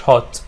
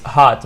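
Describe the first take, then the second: First: HOT with a rounded "o"; wrong vowel demo. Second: HOT with a long open "ah"; open vowel demo. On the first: Teacher showing what to avoid, rounded-vowel HOT. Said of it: "this is hot". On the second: Teacher showing the right sound, open-vowel HOT. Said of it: "مش hot". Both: Shown as a demonstration.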